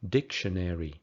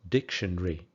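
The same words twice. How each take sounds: First: It is said with more, fuller syllables. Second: It is said with fewer, shortened syllables. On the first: "In American English" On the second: "In British English"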